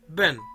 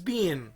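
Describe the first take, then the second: First: The vowel is reduced to a short schwa. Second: The vowel is a full, long ee sound. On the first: "weak form of being is ben, ben, with schwa" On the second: "the strong form of being is being"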